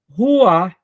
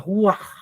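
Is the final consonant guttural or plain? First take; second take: plain; guttural. First: The final h sound is soft and neutral. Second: The final sound is a throaty guttural rasp. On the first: "uma leitura mais simples no português seria Ruach" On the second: "com um som gutural"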